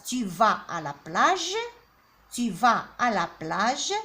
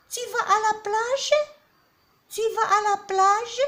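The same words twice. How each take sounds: First: Said in the usual way. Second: Much higher and louder, "plage" rising as a question; rising question tune. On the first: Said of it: "Une phrase déclarative". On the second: Shown as a demonstration. Teacher contrasts statement and question, voice soaring high. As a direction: push "tu vas à la plage?" way up into a question. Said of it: "L'intonation change".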